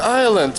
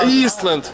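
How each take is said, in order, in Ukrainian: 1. Слово вимовляється без звуку s. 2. Слово вимовляється зі звуком s. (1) "І не Айленд читається" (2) "а Ісленд"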